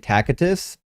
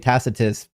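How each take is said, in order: First: The c is pronounced as a hard k sound. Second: The c is pronounced as a soft s sound. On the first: This is the original pronunciation. "the correct p- pronunciation of Tacitus is actually" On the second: This is the usual Western pronunciation. "in the West we just say Tacitus because we soften the C"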